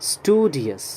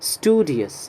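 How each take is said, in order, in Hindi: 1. यह अमेरिकी उच्चारण में कहा गया है। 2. यह अमेरिकी उच्चारण में कहा गया है।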